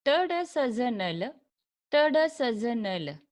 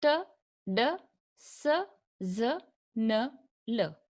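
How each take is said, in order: First: T, D, S, Z, N, L chanted as one quick connected string; run-together repetition drill. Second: T, D, S, Z, N, L spaced out, each a separate short syllable; slow sound-by-sound demo. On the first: Teacher repeats the sounds as a memory trick, quick chanted drill. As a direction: link T, D, S, Z, N, L without gaps, in two rounds. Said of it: "Repeat it". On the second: Teacher models alveolar sounds for learners, slow and separated. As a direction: say T, D, S, Z, N, L one by one with clear pauses. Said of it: "Listen it very carefully". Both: Shown as a demonstration.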